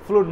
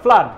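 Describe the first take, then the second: First: The vowel is a rounded 'oo' sound. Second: The vowel is an open 'uh' sound. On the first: The speaker calls it wrong. "অনেকে ফ্লুড ফ্লাড বলে ফেলেন, ফ্লুড না" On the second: The speaker calls it right. "ব্লাডের মতন করে ফ্লাডটা বলবেন"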